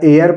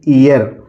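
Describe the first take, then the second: First: The word is said with an air vowel. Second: The word is said with an ee vowel. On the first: "या एयर पढ़ेंगे" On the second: "इसको दोस्तों हम पढ़ेंगे ईयर"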